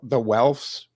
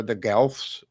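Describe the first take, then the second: First: Welfs starting on a W, no G; W pronunciation. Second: Guelphs starting on a hard G; G pronunciation. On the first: Co-host showing switched letters, Welfs said with a W. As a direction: say Welfs with an opening W sound. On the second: Co-host showing switched letters, Guelphs said with a hard G. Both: Shown as a demonstration. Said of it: "the G's and the W's get switched".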